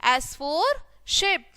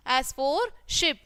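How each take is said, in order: Both takes have the same delivery.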